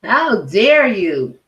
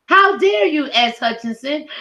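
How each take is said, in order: First: Very slow, heavy, drawn out; slow indignation. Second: Sudden much higher indignant cry; outraged. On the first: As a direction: let each word land in disgust. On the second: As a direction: fling it at her in disbelief. Outraged call-out of S Hutchinson. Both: Real, not acted.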